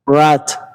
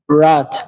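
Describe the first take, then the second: First: The R is a soft English approximant. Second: The same.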